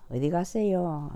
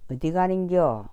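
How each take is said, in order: First: It is said in soft standard speech. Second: It is said in the blunt local dialect.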